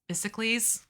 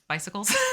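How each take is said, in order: First: The ending is said like 'kleez', as in Hercules. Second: The ending is said the usual way, like 'kuls'.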